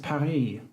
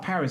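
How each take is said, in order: First: It is pronounced with a French accent. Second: It is pronounced with an English accent.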